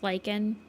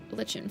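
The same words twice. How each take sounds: First: The middle consonant is a hard K sound. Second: The middle consonant is a softer, non-K sound. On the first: "you're supposed to pronounce it as lichen" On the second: "I feel it easier to say lichen for"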